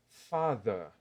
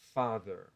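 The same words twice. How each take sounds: First: The final R is silent, ending in a vowel. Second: The final R is pronounced after the vowel. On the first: "um britânico, ou um australiano... vai pronunciar essa palavra desse jeito. Não pronuncia o R" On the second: "O americano vai pronunciar como father"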